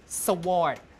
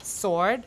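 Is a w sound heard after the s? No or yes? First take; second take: yes; no. First: A w sound is heard after the s. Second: No w sound is heard after the s. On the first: This is the older pronunciation. "In Old English, you pronounce it sword. S and W always pronounced" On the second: This is the later pronunciation. "W is not pronounced"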